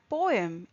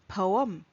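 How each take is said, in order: First: It is said in an Indian accent. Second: It is said in an American accent. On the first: "poem is how we say it in Indian English" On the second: "in American it is pronounced as poem"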